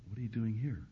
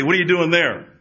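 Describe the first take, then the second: First: Very soft, tender question; beautiful gentle voice. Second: Loud, high-pitched mock demand; harsh calling out. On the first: Acted. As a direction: ask it quietly, like God waiting inside. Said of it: "in a beautiful voice he says". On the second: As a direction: call it loudly as if from outside. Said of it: "He didn't say".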